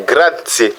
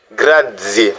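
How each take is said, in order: First: "grazie" with Z said as a sharp TS. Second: "grazie" with Z said as a voiced DZ. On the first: Teacher shows learners one of two options, Z as TS. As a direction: say "grazie" as "gra-tsie". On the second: Teacher shows learners the other option, Z as DZ. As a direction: say "grazie" as "gra-dzie". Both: Shown as a demonstration. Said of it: "ou Z".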